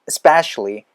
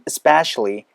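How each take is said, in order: First: The opening vowel sound is almost dropped. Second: The same.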